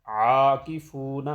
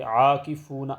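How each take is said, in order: First: عاکفون slow, opening on a throaty ع; proper tajweed ain; correct ain. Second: عاکفون with a plain alif, no throaty ع; wrong ain. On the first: Shown as a demonstration. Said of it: "عین کی ادائیگی درست کرنی ہے". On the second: Retold or imitated. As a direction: say عاکفون the careless Urdu way. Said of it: "تو ایسے نہیں".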